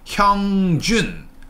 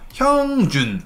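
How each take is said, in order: First: The voice stays up on the name. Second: The voice sinks down on the name. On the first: The speaker calls it right. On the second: The speaker calls it wrong.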